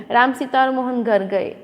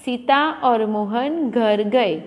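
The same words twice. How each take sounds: First: Short stop after Ram; Ram said, a brief halt, then Sita और मोहन घर गए; pause after the comma. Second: Said in the usual way. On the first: Shown as a demonstration. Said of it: "Ram, फिर थोड़ा अटकना है". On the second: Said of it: "ऐसा तो नहीं बोलते ना".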